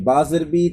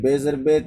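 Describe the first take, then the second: First: The vowel is a full, pure 'ee' sound. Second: The vowel is a lax 'ay' sound. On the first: The speaker calls it right. "इन खफाज कामिल कसरा में यह है कि" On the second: The speaker calls it wrong. "इन खफाज नाक़िस ये है कि"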